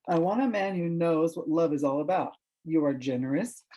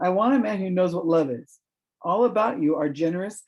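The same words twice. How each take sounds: First: There is a break after 'about'. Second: There is a break after 'is'.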